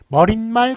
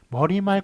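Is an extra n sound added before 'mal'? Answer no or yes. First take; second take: yes; no. First: An extra n sound is added before mal. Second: No extra n sound is added before mal. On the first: The speaker calls it wrong. "머릿말, 꼬릿말로 발음하는 거 틀린 발음입니다" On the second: The speaker calls it right. "머리말, 꼬리말이에요"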